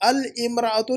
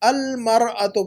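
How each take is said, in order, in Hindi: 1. 'al' के बाद वाला शब्द 'imra' से शुरू होता है। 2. 'al' के बाद वाला शब्द 'mar' से शुरू होता है। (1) "अल इमराअतु नहीं पढ़ेंगे" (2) "अल मरअतु पढ़ेंगे"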